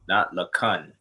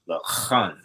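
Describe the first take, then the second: First: The middle consonant is a hard plain k. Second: The middle consonant is a raspy throat kh. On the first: The speaker calls it wrong. "not the ka" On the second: The speaker calls it right. "you want to pronounce it lakan"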